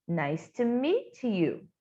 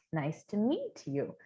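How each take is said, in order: First: Slow demo. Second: The phrase again, lower and softer; soft repeat. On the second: Teacher repeats the greeting softly for students to copy. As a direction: echo it quietly, like a model for repeating. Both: Shown as a demonstration.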